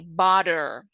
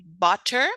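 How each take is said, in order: First: The middle consonant is a quick flap sound. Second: The middle consonant is a clear t sound. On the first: "in American English, we say butter. So we have that flap" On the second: "usually you would say butter"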